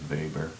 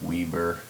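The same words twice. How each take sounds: First: The word is pronounced the German way. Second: The word is pronounced the English way. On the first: "in the German pronunciation" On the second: "if you anglicize it"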